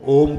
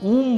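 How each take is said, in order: First: The vowel is a long 'oh' sound. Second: The vowel is a long 'oo' sound. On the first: The speaker calls it right. "तो ओम के उच्चारण होगा" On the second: The speaker calls it wrong. "यदि ऊ का उच्चारण करोगे तो ऊम बनेगा"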